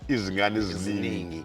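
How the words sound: The z sounds are strongly emphasized. "down south they would say"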